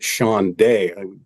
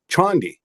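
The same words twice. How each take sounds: First: The name is said with a French sound. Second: The name is said without a French sound. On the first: The speaker calls it wrong. "some people think he's French and they pronounce it Chande" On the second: The speaker calls it right. "It's the Chande momentum momentum oscillator"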